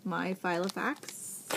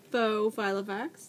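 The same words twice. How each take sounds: First: Said in the usual way. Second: Faux said with a little extra weight as a correction; stress on faux. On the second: Real, not acted. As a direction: lean lightly on faux to correct yourself.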